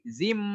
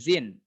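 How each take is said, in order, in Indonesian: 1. Suku kata ini berakhir dengan bunyi m. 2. Suku kata ini berakhir dengan bunyi n. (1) "tapi zim" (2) "bukan zin"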